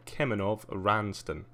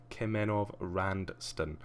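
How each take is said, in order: First: Said in the usual way. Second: "Kemenov Ranston" read slowly, syllable by syllable; slow careful name check. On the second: Real, not acted. Checking the entrant's name against the passport, slow and careful. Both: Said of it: "Really gotta keep an eye on these spellings".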